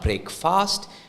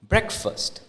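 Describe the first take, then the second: First: The second syllable sounds like fast. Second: The second syllable sounds like fest. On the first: The speaker calls it wrong. "So it's not breakfast" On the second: The speaker calls it right. "it comes out as breakfast"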